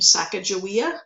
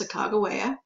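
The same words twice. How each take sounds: First: The middle consonant is a soft j sound. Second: The middle consonant is a hard g sound. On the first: This is a commonly heard but less accepted form. The speaker calls it wrong. "You may have heard her name" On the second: This is the form more accepted today. The speaker calls it right. "the more accepted pronunciation today"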